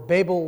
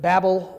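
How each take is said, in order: First: The first vowel is long, as in table. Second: The first vowel is short, as in rabble. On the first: "Babel like table" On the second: "Babel like rabble"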